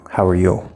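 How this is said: The stress falls on the word you. The question is thrown back to the other person. "That sounds more like we're emphasizing you"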